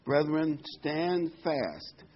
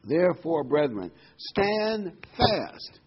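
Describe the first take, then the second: First: Firm emphasis on stand fast; firm stress. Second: Slow, loud stand fast; emphatic preaching. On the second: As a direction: stretch out stand fast with force. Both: Shown as a demonstration. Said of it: "here's the main verse fifteen".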